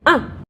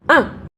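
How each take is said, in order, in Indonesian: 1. Nadanya turun tajam dari tinggi ke rendah. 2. Nadanya turun tajam dari tinggi ke rendah.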